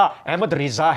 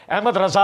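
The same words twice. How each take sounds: First: احمد رضا as "Ahmad Riza", drawn out slowly; corrected reading, Riza. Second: احمد رضا as "Ahmad Raza", higher and quicker; wrong reading, Raza. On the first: Quoting the correction of the clerics, slow رضا said "Riza". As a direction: stretch رضا with an i, "Ri-zaa". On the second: Mimicking the criticised clerics' reading, رضا said "Raza". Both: Retold or imitated. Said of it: "یہ مولوی غلط پڑھتے ہیں".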